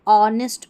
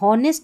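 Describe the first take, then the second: First: It begins directly with a vowel, no h. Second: It begins with an audible h sound. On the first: The speaker calls it right. "ऑनेस्ट पढ़ेंगे" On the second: The speaker calls it wrong. "यहाँ हॉनेस्ट नहीं"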